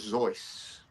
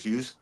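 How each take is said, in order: First: The surname uses the original intended pronunciation. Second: The surname uses the everyday popular pronunciation. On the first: This is how the name was meant to be said. "the correct pronunciation is Doctor Zeus" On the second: This is how most people say the name. "because everyone calls him Doctor Zeus, I'll carry on calling him Doctor Zeus"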